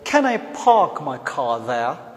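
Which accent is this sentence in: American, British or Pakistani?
British. It is spoken with a British accent. "A Britisher will speak it as"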